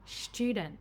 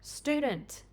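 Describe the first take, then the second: First: A blended ch sound follows the s. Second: A separate t and y sound follows the s.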